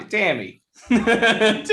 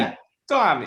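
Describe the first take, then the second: First: Boston accent said high; Boston accent, breaking into laughter. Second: Lightly done Boston accent; a hint of Boston in the vowels. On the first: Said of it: "is it Boston?". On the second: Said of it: "can you do a Boston accent?". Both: Shown as a demonstration.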